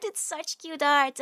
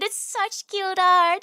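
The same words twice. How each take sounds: First: Calmer, quieter restatement; slow, gentler affection; softer repeat. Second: Higher, slower, louder gush; slow, high gushing praise. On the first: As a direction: say it again, settling down. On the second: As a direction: squeal it with adoration. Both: Real, not acted.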